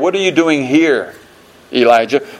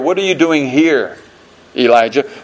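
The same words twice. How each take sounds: First: The stress is on the word here. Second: The stress is on the word here.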